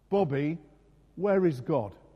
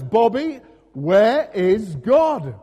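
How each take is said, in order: First: The question is asked at normal volume. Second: The question is asked in a loud voice.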